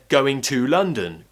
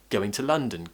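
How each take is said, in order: First: The word 'to' is said fully with 'oo'. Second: The word 'to' is reduced to a quick schwa. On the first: "If I said going to London" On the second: "I'm pronouncing to as t, I'm using the schwa sound instead of oo"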